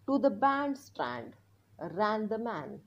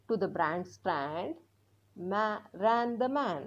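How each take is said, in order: First: Very slow word-by-word reading; reading aloud slowly. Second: Very slow, careful reading; reading aloud slowly. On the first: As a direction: read it out slowly for learners to follow. (हळू मोठ्याने वाचन) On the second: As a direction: read the line out slowly again. (पुन्हा हळू वाचन) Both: Shown as a demonstration. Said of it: "आता आपण हे मोठ्याने वाचणार आहोत".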